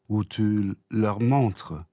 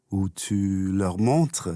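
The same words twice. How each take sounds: The two takes are said the same way.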